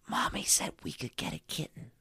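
The word kitten is spoken in a whisper. The speaker calls it right.

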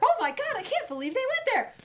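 It is said in an excited, enthusiastic tone. The speaker is thrilled by what happened. "saying something very enthusiastically"

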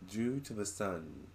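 It is said imitating the spirit's accent.

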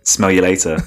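It is said in an English accent. "Do it in an English accent"

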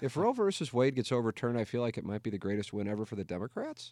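The voice rises at the end, like Ron Burgundy.

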